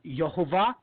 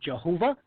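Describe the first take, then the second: First: The name begins with a Y sound. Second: The name begins with a J sound. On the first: "Some people uh, pronounce it uh" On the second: "some people pronounce it Jehovah"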